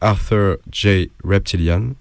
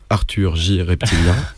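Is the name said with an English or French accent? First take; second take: English; French. First: The name is said with an English accent. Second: The name is said with a French accent.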